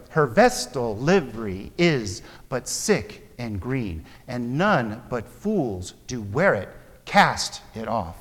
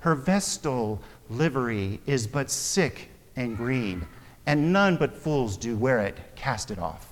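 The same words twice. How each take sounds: First: Slow iambic beat, Her vestal livery with vest stressed. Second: Said in the usual way. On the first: Shown as a demonstration. Teacher reading Shakespeare to the class in iambic rhythm. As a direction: tap out the iambic pentameter. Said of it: "It's intended to be said that way". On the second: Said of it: "That's how we would read that".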